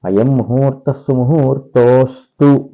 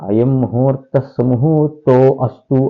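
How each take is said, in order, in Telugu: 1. 'o' మరియు 'astu' కలిసి ఒకే పదంగా చెప్పబడతాయి. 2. 'o' మరియు 'astu' వేరు వేరు పదాలుగా చెప్పబడతాయి. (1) "పూర్వరూపం కలిపేయాలి" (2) "అది చాలా తప్పది"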